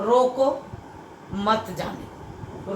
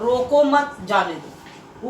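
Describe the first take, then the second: First: There is a pause right after roko. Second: There is a pause right after mat. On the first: Stop them; do not let them go. "रोको के बाद अल्प विराम लगाने से रोकने के लिए कहा गया" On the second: Do not stop them; let them go. "रोको मत के बाद अल्प विराम लगाने से किसी को न रोक कर जाने के लिए कहा गया"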